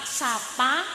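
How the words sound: It is said with Ngapak open a vowels.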